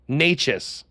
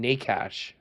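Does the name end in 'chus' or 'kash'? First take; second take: chus; kash. First: The name ends with a 'chus' sound. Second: The name ends with a 'kash' sound. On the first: The speaker calls it right. "that's not Nachus" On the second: The speaker calls it wrong. "We just want to call him Nakash"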